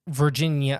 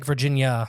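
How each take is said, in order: First: It sounds unlike the US state's name. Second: It sounds like the name of the US state. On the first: This names the South American incident location. "but it's like Virginia. I can't do it" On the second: This names the American state. "It's almost like Virginia, the state"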